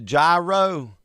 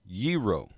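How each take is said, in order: First: The word begins with a hard G sound. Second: The word begins with a Y sound. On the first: The speaker calls it wrong. "you say, I want the gyro" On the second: The speaker calls it right. "There's no hard G. Ye, yeet"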